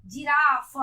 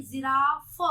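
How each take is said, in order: First: Loud जिराफ starting with j; जिराफ without nukta sounds; wrong जिराफ. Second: Loud जिराफ with z and f; buzzing z opening जिराफ; nukta जिराफ. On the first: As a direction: say जिराफ as jiraaph. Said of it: "नहीं, जिराफ". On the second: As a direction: say जिराफ as ziraaf. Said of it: "एफ, जिराफ". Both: Shown as a demonstration.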